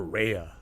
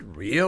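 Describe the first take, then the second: First: "Rhea" said as RAY-uh; "Rhea" with an ay in the first syllable; second pronunciation of Rhea. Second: "Rhea" said as REE-uh; "Rhea" with a long ee in the first syllable; first pronunciation of Rhea. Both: Shown as a demonstration. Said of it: "Is it Rhea or Rhea?".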